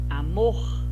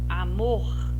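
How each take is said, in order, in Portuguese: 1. A tônica está na última sílaba. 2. A tônica está na última sílaba.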